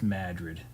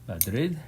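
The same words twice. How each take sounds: First: The name is said the local Maine way. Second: The name is said the usual, widespread way. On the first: This is how the name is said in Maine. "In Maine, it's just Madrid" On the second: This is the name of the Spanish capital. "capital of Spain is Madrid"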